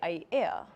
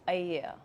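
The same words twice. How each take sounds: First: A glottal break splits the middle vowels. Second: The middle vowels flow without a break. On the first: The speaker calls it wrong. "people tend to say Aiea" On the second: The speaker calls it right. "but actually it's Aiea"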